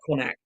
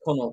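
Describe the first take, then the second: First: The name ends with a harsh 'kht' sound. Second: The name ends with a plain 'nawt' sound. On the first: The speaker calls it wrong. "It's not Connacht" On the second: The speaker calls it right. "I'm pretty sure it's Connaught"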